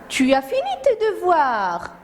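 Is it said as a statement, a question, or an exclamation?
exclamation. It is said as an exclamation.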